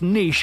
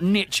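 First: The word is said with a French-style pronunciation. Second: The word is said with the American pronunciation. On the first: The speaker calls it right. "It's niche, okay? It's a French word" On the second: The speaker calls it wrong. "not niche, America"

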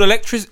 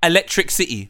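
First: It is said as one smooth word. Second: It is said as two words, electric city. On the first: The speaker calls it right. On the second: The speaker calls it wrong.

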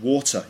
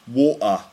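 First: The middle T is fully pronounced. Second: The middle T is replaced by a catch in the throat. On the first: This is the standard British pronunciation. "So instead of water" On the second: This is a southern British dialect pronunciation. "you get water"

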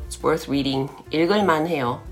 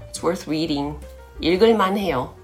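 Both takes have the same delivery.

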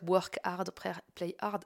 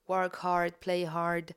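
First: It is said with a French accent. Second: It is said with an English accent.

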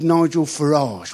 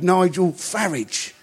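First: The surname ends with a soft 'ahzh' sound. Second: The surname ends with an 'idge' sound. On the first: The name sounds foreign and upper-class. The speaker calls it wrong. "he wouldn't be called Nigel Farage" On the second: The name sounds ordinary and working-class. The speaker calls it right. "like garage, not garage"

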